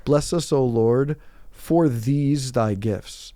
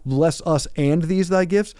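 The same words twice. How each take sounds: First: Slow, stressing the word "for"; mock the common wrong wording, slow and deliberate; wrong version. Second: Slow, stressing "and these thy gifts"; right version. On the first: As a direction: drawl "for these thy gifts" slowly, leaning on "for". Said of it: "people will say it wrong". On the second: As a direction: say "Bless us and these thy gifts" slowly, clearly. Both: Shown as a demonstration.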